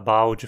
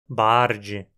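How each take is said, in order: First: The consonant after the first vowel is an L. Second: The consonant after the first vowel is an R. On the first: "no lugar de" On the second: "pessoas falando"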